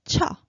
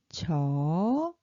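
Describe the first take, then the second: First: Short "cho" with a sharp puff of air; burst of air. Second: "cho" long, low start gliding up; low-pitched consonant. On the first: Teacher reading out the syllable chart, short airy "cho". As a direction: punch out an aspirated "cho". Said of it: "burst of air". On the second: Teacher reading out the syllable chart, low drawn-out "cho". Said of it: "low-pitched". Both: Shown as a demonstration.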